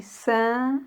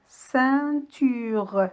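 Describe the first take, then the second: First: "ceinture" broken into cein, tu, re with long pauses; split into syllables. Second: Said in the usual way. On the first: Shown as a demonstration. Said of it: "On dit". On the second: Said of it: "le découpage des mots en syllabes".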